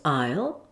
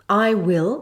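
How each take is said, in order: First: The words are squeezed into one contracted syllable. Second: Both words are said in full.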